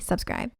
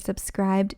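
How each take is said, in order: First: The word is said quickly, final sound lost. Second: The word is said slowly and carefully. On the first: The speaker calls it wrong. "if I say it too fast, it just sounds like I say subscribe" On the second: The speaker calls it right. "I had to say subscribed slower"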